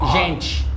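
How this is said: The t sounds like ch. "Brazilian, usually uh, T E it sounds ch"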